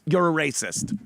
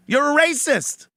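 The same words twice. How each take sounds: First: Said in the usual way. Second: Louder, higher accusation. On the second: Real, not acted. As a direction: turn the quote into a direct charge.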